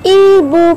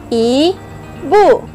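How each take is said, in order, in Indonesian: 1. Kedua suku kata itu menyatu menjadi satu kata. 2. Kedua suku kata itu diucapkan terpisah. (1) "Bila dah rapat, bunyi dia macam mana?" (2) "I pergi dekat bu"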